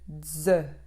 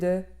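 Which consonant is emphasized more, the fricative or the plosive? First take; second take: fricative; plosive. First: The fricative consonant is given more force. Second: The plosive consonant is held with more force. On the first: The speaker calls it wrong. "au lieu de dze" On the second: The speaker calls it right. "de au lieu de"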